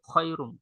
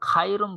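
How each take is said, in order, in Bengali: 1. প্রথম স্বরটি ছোট, গ্লাইডিং a। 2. প্রথম স্বরটি লম্বা, খোলা a। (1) "কি বলে? খয়রুম" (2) "এখানে কিন্তু খাইরুম বলে না"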